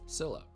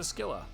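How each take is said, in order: First: The name begins with a plain s sound. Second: The name begins with a hard sk sound. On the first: It follows how the game's computer says it. The speaker calls it right. "I know it's Scylla" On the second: It follows how characters in the game say it. The speaker calls it wrong. "so many characters have pronounced it Skilla that I pronounce it that way"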